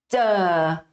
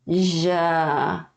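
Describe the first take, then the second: First: The consonant starts with a brief stop closure. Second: The consonant is a smooth, continuous buzz. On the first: "Esse é o som de T" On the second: "E o som de J é J"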